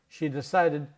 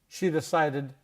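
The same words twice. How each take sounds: Both takes have the same delivery.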